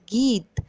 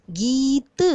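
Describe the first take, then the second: First: Said in the usual way. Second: "गीत" drawn out, with a long गी and a released त; stressed long ई. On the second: Shown as a demonstration. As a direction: stretch the ee in "गीत" so pupils hear it. ("गीत" में बड़ी ई को खींचकर बोलें) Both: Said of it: "जोर दे के बोली जाने वाली मात्रा".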